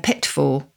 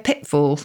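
First: The middle t is fully pronounced. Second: The middle t is a glottal stop. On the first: "rather than a pitfall" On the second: "We say a pitfall"

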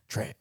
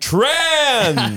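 First: It is said in a negative, hostile tone. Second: It is said in an upbeat, positive tone. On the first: The word is used against people. The speaker calls it wrong. "Not like, ... You know the other way" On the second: The word is celebrated. The speaker calls it right. "In a positive way"

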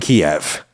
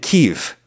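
First: The name is said the usual English way. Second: The name is said the native Ukrainian way.

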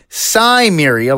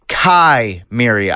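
First: The name sounds like 'Sumeria'. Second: The name does not sound like 'Sumeria'. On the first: This is the pronunciation others say is correct. The speaker calls it right. "supposed to be Cimmeria, like the real-life Sumerians" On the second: This is the speaker's habitual pronunciation. The speaker calls it wrong. "I have always pronounced it Chimeria"

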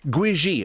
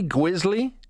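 First: The name is said without an L sound. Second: The name is said with an L sound. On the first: The speaker calls it right. "It's actually Gwiji" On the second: The speaker calls it wrong. "Did I say that correctly?"

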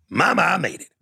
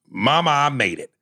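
First: It is read in a put-on character voice. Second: It is read in his plain voice.

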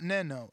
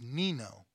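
First: The name does not rhyme with 'casino'. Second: The name rhymes with the end of 'casino'. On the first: The speaker calls it wrong. "I always say it wrong. It's not Neno" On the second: The speaker calls it right. "It's Nino"

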